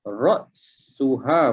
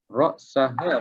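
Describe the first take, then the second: First: The vowel after the s is u. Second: The vowel after the s is a. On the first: It begins a new clause. "ra'suha boleh baca" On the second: It is joined to the previous noun. "Ra'saha pun boleh baca"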